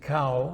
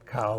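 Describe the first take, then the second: First: The word is said without a low tone. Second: The word is said with a low tone. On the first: The word means rice. "which I think means rice" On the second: The word means something other than rice. "cow with a low tone means something else"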